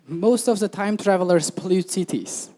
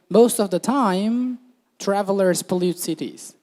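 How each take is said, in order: First: It runs on with no pause after 'time'. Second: There is a pause right after 'time'. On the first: Travelers through time pollute cities. The speaker calls it wrong. "Here they're saying time travelers pollute cities" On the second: Usually, travelers pollute cities. The speaker calls it right. "what they meant was"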